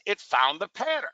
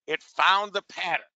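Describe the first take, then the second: First: Said in the usual way. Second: Found leaned on, slower and falling; slow down and press on "found"; stress on found. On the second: Shown as a demonstration. Trader showing the class the tool found it, stressing found. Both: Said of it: "See this?".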